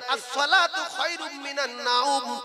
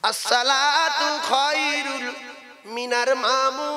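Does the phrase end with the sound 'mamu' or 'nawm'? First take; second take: nawm; mamu. First: The phrase ends clearly with 'minan nawm'. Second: The phrase ends with a garbled 'minar mamu'. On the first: The speaker calls it right. "এইটা সঠিক বলতে পারে না" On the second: The speaker calls it wrong. "কেউ বলে মামু।"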